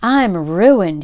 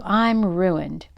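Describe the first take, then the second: First: Wailing. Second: Said in the usual way. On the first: A narrator's reading. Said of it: "he wailed". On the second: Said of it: "groaned the Yankee trader".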